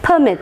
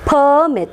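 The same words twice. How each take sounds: First: The stress is on the second syllable. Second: The stress is on the first syllable. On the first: It means to allow something. "stress will be marked on the second syllable if it is a verb" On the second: It names a document giving permission. "If it is a noun, stress will be marked on the first syllable"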